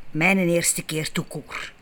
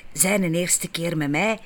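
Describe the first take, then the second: First: Mijn pushed hard at the start, slowly; stress on mijn. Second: Mij lifted and held at the end, rising; stress on mij. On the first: Narrator setting her first time against his, stress on mijn. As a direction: hit the word mijn against zijn. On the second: Narrator contrasting his first time with hers, stress on mij. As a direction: lean slowly on the word mij. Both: A narrator's reading.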